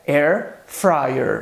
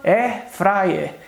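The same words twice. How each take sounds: First: It is said with an English pronunciation. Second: It is said with a Brazilian Portuguese pronunciation. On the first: The speaker calls it right. "a pronúncia correta é air fryer" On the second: The speaker calls it wrong. "A gente costuma dizer no português"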